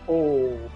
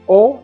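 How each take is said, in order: First: The O vowel is drawn out long. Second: The O vowel is short and plain. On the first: "you elongate the O" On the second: "simply O as in English"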